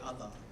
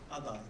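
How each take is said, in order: First: The final R sound is dropped. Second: The final R sound is pronounced clearly.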